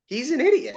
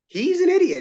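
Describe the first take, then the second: First: Higher, dismissive retort; exasperated retort. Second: High, louder heated insistence. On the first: Player arguing about an opponent, higher scornful retort. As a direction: brush it off with scorn. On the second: Player arguing with the official, high heated insistence. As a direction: insist with mounting heat. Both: Retold or imitated.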